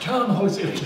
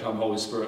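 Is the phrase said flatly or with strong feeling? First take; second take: with feeling; flatly. First: It is said with strong, earnest feeling. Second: It is said flatly, without much feeling. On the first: The request is made wholeheartedly. The speaker calls it right. "Is that some feeling? ... No, like" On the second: The request is made half-heartedly. The speaker calls it wrong. "No, you're not saying it right"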